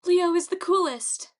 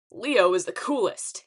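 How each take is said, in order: First: High, loud echoing cheer; high fangirl shout; shouting back. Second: Loud, swaggering announcement; loud self-promoting call; shouted boast. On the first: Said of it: "Echo shouted back". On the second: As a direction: shout it out cockily to a crowd. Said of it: "he shouted". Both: A narrator's reading.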